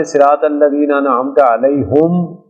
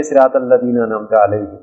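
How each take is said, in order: First: Slow recital, علیہم as alayhum with u on the h; recited with alayhum. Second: علیہم recited as alayhim with an i on the h. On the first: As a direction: read علیہم with pesh on the h, slowly. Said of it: "ایک قرات ہے". (علیہم کو پیش کے ساتھ علیہُم آہستہ پڑھیں) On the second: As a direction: read علیہم with the h vowel as i. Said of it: "ایک قرات یہ ہے". (علیہم کو زیر کے ساتھ علیہِم پڑھیں) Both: Shown as a demonstration.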